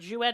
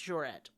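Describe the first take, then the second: First: The name is said without a middle r sound. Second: The name is said with a middle r sound. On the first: The speaker calls it wrong. "It's not Jouet" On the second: The speaker calls it right. "it's Jouret"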